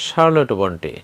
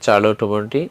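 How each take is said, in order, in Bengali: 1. নামটি sh শব্দ দিয়ে শুরু হয়। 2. নামটি ch শব্দ দিয়ে শুরু হয়। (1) "ইংলিশে বলা হয়" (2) "বাংলায় বলা হয়"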